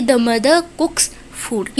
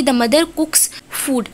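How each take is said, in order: First: Mother said without R before cooks, very slowly; slow careful demo, mother ends in a plain vowel; no linking R. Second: Said in the usual way. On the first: Shown as a demonstration. Teacher slowly models mother cooks with the R dropped. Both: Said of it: "इस तरीके से pronounce करेंगे".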